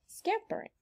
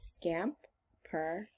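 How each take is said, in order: First: Scampering said much higher, lightly; bright repeat. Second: Scampering drawn out slowly, syllable by syllable; slow stretched word. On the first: Teacher repeating the word for kids, high and light. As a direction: pop scampering up high the second time. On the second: Teacher stretching a word so kids count syllables, slow. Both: Shown as a demonstration. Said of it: "How many syllables".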